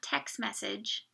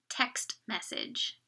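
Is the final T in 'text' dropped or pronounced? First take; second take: dropped; pronounced. First: The final T of 'text' is dropped. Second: The final T of 'text' is clearly pronounced. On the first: The speaker calls it wrong. "So it's not text message. Sometimes you will hear people say that" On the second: The speaker calls it right. "try to get that last T"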